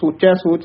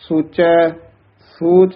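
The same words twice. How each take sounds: First: The two words run together without a pause. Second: There is a short pause after the first word. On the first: The speaker calls it wrong. "ਸੋਚੈ ਸੋਚ ਨਹੀਂ ਕਹਿਣਾ" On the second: The speaker calls it right. "ਸੋਚੈ ਪਦ ਤੇ ਵੀ ਥੋੜਾ ਜਿਹਾ ਠਹਿਰਾ"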